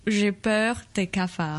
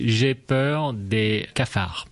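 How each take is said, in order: First: J'ai peur des cafards repeated carefully; learner repeat. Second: J'ai peur des cafards said slowly and clearly; slow French demo. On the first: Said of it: "learner repeats". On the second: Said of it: "You would say". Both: Shown as a demonstration.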